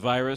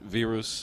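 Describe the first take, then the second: First: The name is said the English way. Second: The name is said the Slovenian way. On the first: "it looks like virus to an American or Englishman" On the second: "actually pronounced virus uh, with the Slovenians"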